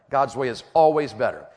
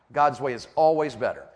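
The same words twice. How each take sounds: The two takes are said the same way.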